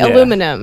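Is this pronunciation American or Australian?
American. It has four syllables, ending in '-inum'. "You say aluminum"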